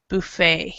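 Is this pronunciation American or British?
American. It is said the American way. "up in the United States, you might hear somebody say buffet"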